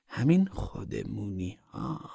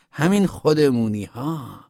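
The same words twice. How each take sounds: First: Soft, very slow echo; hushed repeat. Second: خودمونی drawn out, higher in pitch; emphatic naming. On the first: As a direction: drop the volume and stretch خودمونی meaningfully. Woman repeats it, dropped low. (تکرار آهسته و کشیده) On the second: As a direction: say همین خودمونی ها slowly, in a high firm voice. Woman insists, then repeats it. («همین خودمونی ها» کشیده، با صدای زیر و محکم) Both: A narrator's reading.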